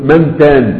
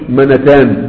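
First: The nun is silent with no vowel. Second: The nun carries a short a vowel. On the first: The speaker calls it right. "قل منتان" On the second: The speaker calls it wrong. "ما تقولش منتان"

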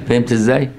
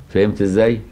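The two takes are said the same way.

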